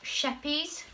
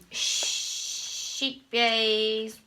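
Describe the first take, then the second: First: "Sheppies" with a short e, SHEP-eez; "Sheppies" offered as another pronunciation, short first vowel; alternative pronunciation. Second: "sheep bays" drawn out slowly as SHEEP-bays; hesitant, stretched "sheep bays"; mispronounced brand name. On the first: Shown as a demonstration. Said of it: "some people say sheppy, sheppies". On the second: Real, not acted. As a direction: say "sheep bays" with a long ee, then bays. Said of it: "I say that wrong every single time".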